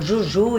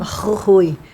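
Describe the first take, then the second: First: It starts with a soft 'j' sound. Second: It starts with a breathy 'h' sound. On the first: The speaker calls it wrong. "a gente nem pronunciava direito" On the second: The speaker calls it right. "tem que pronunciar certo"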